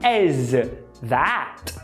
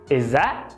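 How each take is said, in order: First: Both words are said fully with clear consonants. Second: The consonants are dropped into a short blend. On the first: "ao invés de as that" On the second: "eu percebo exa"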